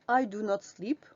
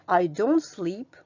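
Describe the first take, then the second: First: 'Do not' is said as two full words. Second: 'Do not' is said as one short word. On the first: "on va mettre do et not" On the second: "La forme réduite, c'est celle qu'on utilise le plus souvent à l'oral"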